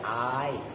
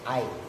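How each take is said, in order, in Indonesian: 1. Vokal pertama panjang. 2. Vokal pertama pendek. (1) "panjang ai bil mati dengan dibaca mat hamzahnya" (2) "fil qasri"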